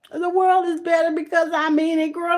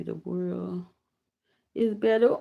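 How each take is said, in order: First: Moved exclamation. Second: Said in the usual way. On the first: Real, not acted. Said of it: "don't make me cry". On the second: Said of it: "I read that".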